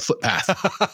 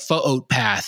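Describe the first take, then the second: First: The middle vowels run together as one vowel. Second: The two middle vowels are split with a break. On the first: This is the ordinary English reading. "instead of footpath" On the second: The reader has absorbed Hawaiian spelling habits. "want to call it foot path"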